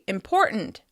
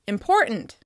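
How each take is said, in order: No difference in how they are said.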